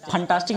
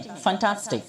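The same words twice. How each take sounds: First: फंटास्टिक with aspirated p, as "phantastik"; wrong pronunciation. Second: फंटास्टिक opening on an airy true f; correct f sound. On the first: Teacher showing what not to say, wrong pronunciation. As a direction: pop the lips to start फंटास्टिक. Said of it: "फंटास्टिक नहीं". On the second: Teacher modelling fantastic, correct f sound. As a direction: say फंटास्टिक with air through the lips. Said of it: "एफ बोलते समय होठों से हवा". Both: Shown as a demonstration.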